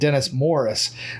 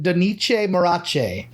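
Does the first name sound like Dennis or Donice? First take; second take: Dennis; Donice. First: The name sounds like Dennis Morris. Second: The name sounds like Donice Morace. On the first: The speaker calls it right. "how to properly pronounce his name" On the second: The speaker calls it wrong. "you do not pronounce it"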